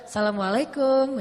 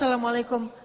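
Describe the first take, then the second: First: The greeting is said in a flirtatious tone. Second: The greeting is said in a plain, ordinary tone.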